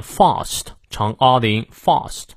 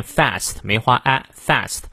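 First: British "fast" with a long "ah", like "fahst"; teacher models British "fast"; British pronunciation. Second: American "fast" with the A of "cat"; teacher models American "fast"; American pronunciation. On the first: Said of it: "而英国人呢会念fast". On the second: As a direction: say fast with a front, open a. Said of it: "美国人念fast". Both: Shown as a demonstration.

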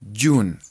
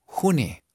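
First: June as YUN, silent E; English pronunciation. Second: June read the Spanish way, HU-ne; read literally. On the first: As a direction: say June with J like a Y and drop the E. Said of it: "como si la J fuera una Y". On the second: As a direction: say June as written, Spanish J and sounded E. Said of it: "Así se escribiría literal". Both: Shown as a demonstration.

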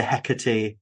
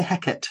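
First: Hecate said as HEK-uh-tee; usual three-syllable pronunciation. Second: Hecate said as HEK-ut; two syllables, Hecate ending in "ut"; Shakespearean pronunciation. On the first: Host talking to witches, Hecate as HEK-uh-tee. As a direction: finish Hecate on a clear "tee". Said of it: "but I still say Hecate". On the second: Host explains how Macbeth people tend to say it, Hecate as HEK-ut. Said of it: "they tend to say Hecate". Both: Shown as a demonstration.

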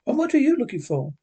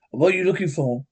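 First: Higher, quicker echoed question; lightly voiced girl butting in; girl interrupting. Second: Said in the usual way. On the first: A narrator's reading. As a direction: cut in with a high, fast question. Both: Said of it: "the girl interrupted".

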